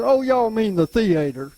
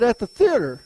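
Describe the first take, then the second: First: "theater" said thee-AY-ter, the second syllable long AY; higher sister voice saying thee-AY-ter; sister's correction. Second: Said in the usual way. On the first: Retold or imitated. Sister correcting his pronunciation.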